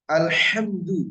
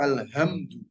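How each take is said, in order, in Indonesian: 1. Bunyi h-nya berat, dari tenggorokan. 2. Bunyi h-nya ringan, biasa saja. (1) "segala puji" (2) "karena memang hak nggak ada dalam bahasa Indonesia"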